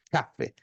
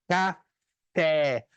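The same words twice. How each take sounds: First: "Café" with a strong CA and a low, light ending; first-syllable stress. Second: "café" split slowly, landing on a long FÉ; Portuguese acute-accent stress. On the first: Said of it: "dando a entonação na primeira sílaba". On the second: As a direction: stretch the final stressed syllable of "café", ca-FÉÉ. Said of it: "com acento agudo". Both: Shown as a demonstration.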